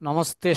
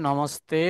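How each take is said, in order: No difference in how they are said.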